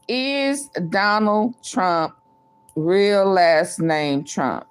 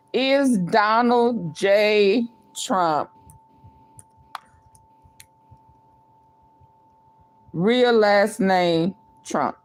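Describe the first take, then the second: First: Spelled-out slow read for typing; slow, careful dictation of a poll; dictating slowly. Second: Slow, even poll read-out; slow careful dictation; dictating slowly. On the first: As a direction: say each word slowly as you type it. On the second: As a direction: read it slowly like you're typing it. Reading the poll out again. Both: Acted.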